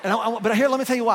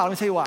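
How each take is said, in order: First: Laughing and loud. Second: Said in the usual way. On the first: Real, not acted. Laughing after teasing the crowd.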